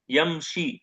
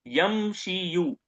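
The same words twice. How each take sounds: First: यमशी ending on a long ee; lighter reading यमशी. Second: यमशियु very slowly, ending ee-yu; heavy iyu ending. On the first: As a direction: say यमशी, dropping the final yu and stopping on ee. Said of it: "इसको क्या पढ़ते हैं". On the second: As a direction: stretch यमशियु syllable by syllable, sounding the final yu. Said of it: "ईयू की आवाज heavy है". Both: Shown as a demonstration.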